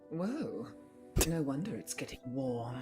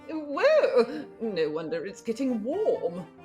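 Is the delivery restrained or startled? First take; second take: restrained; startled. First: It is said in a repressed, restrained British way. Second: It is said with open, startled alarm.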